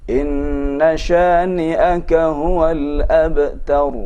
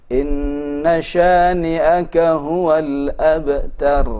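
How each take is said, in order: No difference in how they are said.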